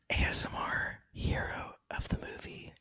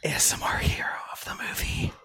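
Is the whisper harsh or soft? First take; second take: soft; harsh. First: It is whispered softly and gently. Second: It is whispered harshly and forcefully. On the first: The speaker calls it right. "Was that better?" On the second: The speaker calls it wrong. "Your whispers are so aggressive"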